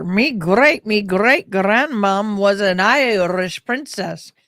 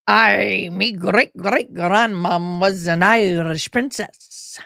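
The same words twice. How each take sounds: First: Lightly put-on Irish lilt, slow and proud; Irish accent played for a joke, drawn out; mock Irish brag. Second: Slow put-on Irish lilt; mock Irish brag. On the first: Viewers hear her mock Irish princess boast in Irish accent. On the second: She repeats her mock Irish princess boast to viewers, slow Irish. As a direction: play the Irish princess line broad and proud.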